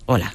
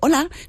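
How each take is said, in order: First: It is said in a flat, dull tone. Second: It is said in a lively, upbeat tone.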